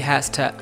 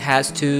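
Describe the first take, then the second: First: The words are shortened and run together. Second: Both words are fully pronounced. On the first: "they say has to. So it's a shorter slang" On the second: "Instead of saying has to"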